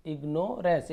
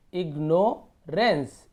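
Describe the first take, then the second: First: Said in the usual way. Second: ignorance drawn out as "igno - rens"; slow sounding-out of ignorance in two chunks; broken into parts. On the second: Shown as a demonstration. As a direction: break ignorance after "igno", very slowly. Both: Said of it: "ऐसे तोड़ तोड़ के पढ़ना है".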